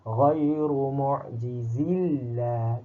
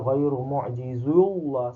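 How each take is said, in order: First: The L in Allah is pronounced thin and light. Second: The L in Allah is pronounced thick and heavy. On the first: The speaker calls it right. "Kena baca nipis" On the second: The speaker calls it wrong. "Kalau baca tebal"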